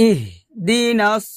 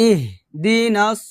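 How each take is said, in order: Both takes have the same delivery.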